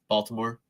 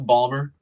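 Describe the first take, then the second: First: All three syllables are said, including the t. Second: The middle syllables are dropped, giving two syllables.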